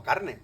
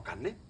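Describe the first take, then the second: First: "carne" with the r sounded; standard r. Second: "carne" softly as "canne"; Andalusian assimilation. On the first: Lecturer showing the form Andalusians avoid, sounded r. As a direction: tap the r clearly in "carne". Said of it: "No decimos carne". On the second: Lecturer correcting to the Andalusian form, doubled n. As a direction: swap the r of "carne" for a long n. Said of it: "decimos carne". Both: Shown as a demonstration.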